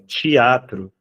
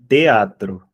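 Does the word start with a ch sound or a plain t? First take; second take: ch sound; plain t. First: The word starts with a ch sound. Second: The word starts with a plain t sound. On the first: The speaker calls it wrong. "vai ter gente que fala é, teatro, né? Tch, tch, com som de tch" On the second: The speaker calls it right. "é com som de tatu. Então, é teatro"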